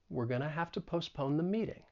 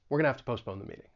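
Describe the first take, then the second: First: The sentence is said at a moderate speed. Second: The sentence is said quickly. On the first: "and then get faster" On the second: "and then get faster"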